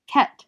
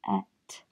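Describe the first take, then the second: First: "ket" in one loud beat; loud, short "ket"; blended syllable. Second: "Ket" as separate sounds, k, then et; phonics-style "Ket", not blended; sounded out. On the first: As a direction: say "ket" joined up and firm. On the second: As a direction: softly sound out "Ket" with a gap. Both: Shown as a demonstration. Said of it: "Can you read the second syllable?".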